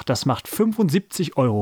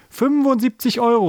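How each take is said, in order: First: Said in the usual way. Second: High, excited cry; enthusiastic shout. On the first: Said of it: "rechnete Jojo aus". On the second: A narrator's reading. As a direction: blurt it out far too eagerly. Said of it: "rief Paul begeistert. Allerdings viel zu laut".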